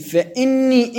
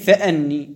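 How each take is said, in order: First: The glottal stop is followed by an 'i' vowel. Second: The glottal stop is followed by an 'a' vowel. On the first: "يجوز أن تكون مكسورة الهمزة" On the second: "ويجوز أن تكون مفتوحة الهمزة"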